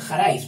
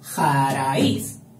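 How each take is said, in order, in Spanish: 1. La palabra se pronuncia en dos sílabas. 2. La palabra se pronuncia en tres sílabas. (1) "si no dicen jaraiz los paisanos" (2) "que están haciendo tres"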